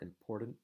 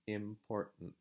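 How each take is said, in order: First: A clear T consonant is pronounced. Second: A glottal break replaces the T. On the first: The speaker calls it wrong. "I'm not saying" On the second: The speaker calls it right. "making a break between the two vowel sounds"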